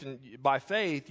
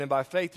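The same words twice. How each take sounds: First: And by faith, slowed down, falling on faith; slow falling emphasis. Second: And by faith, FAITH lifted with a rise; rising emphasis. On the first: Preacher repeating to the congregation, slow and falling. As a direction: settle it slowly and firmly. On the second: Preacher to the congregation about faith, rising. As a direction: toss up faith as a question. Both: Acted.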